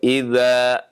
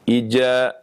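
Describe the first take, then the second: First: The middle consonant is a soft dh sound. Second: The middle consonant is a j sound. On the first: The speaker calls it right. "ketika membaca idza" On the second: The speaker calls it wrong. "berubah menjadi jim"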